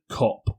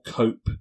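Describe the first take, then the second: First: The vowel is short, like in cop. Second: The vowel is long, like in cope. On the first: "most people pronounce it Cop" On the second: "but I prefer Cope"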